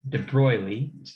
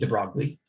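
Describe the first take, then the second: First: The name is pronounced the French way. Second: The name is pronounced an English way. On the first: "the way he, he would want it pronounced, since he was a Frenchman" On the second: "some people might say"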